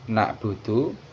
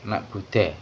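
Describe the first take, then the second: First: The vowels run a, u, u. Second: The vowels run a, u, e. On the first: The speaker calls it right. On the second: The speaker calls it wrong.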